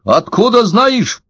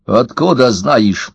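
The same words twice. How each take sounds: First: High, drawn-out indignant demand; narrated high-voiced indignation; indignant old man. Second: Understated, slow indignation at usual pitch; indignant old man. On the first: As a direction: repeat it slowly, pitched way up in outrage. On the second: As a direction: demand it slowly, mildly outraged. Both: A narrator's reading. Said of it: "возмутился старик".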